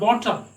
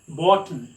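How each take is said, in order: First: The t is fully released. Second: The t is held and not released. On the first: The speaker calls it wrong. "not bottom" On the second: The speaker calls it right. "you have to pronounce it as bottom"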